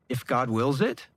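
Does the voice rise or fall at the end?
rise. The voice rises at the end, like a question.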